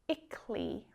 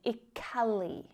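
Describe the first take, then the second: First: The ending is said in two syllables. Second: The ending is said in three syllables. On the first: The speaker calls it right. "when it's spoken naturally, it sounds like ickly" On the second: The speaker calls it wrong. "rather than ickally"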